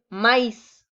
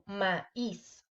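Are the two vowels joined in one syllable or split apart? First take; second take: joined; split. First: The two vowels blend into one syllable. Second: The two vowels fall into separate syllables. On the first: The speaker calls it wrong. "Sería incorrecto decir" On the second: The speaker calls it right. "Debe de quedar separado"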